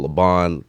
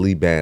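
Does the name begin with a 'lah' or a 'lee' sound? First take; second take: lah; lee. First: The first syllable sounds like 'lah'. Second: The first syllable sounds like 'lee'. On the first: The speaker calls it wrong. "it's the first first name everyone gets wrong. They go Laban" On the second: The speaker calls it right. "I always got to tell them Lee Ban"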